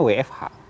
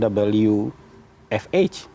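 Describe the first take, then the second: First: The letters are spoken with Indonesian letter names. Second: The letters are spoken with English letter names. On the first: This is the usual local way of saying it. "akronim-akronim asing kita lafalkan dengan Indonesia" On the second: This is the foreign way people do not use.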